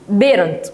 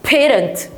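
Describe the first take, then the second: First: The word begins with a B sound. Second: The word begins with a P sound. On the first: The speaker calls it wrong. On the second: The speaker calls it right.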